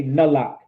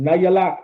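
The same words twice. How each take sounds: First: "Nalak" with the ya dropped; shortened slang form. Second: Said in the usual way. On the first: Shown as a demonstration. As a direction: say "Nalak" in two syllables, no ya. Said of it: "I'll take out the ya". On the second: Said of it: "I would just say Nalak".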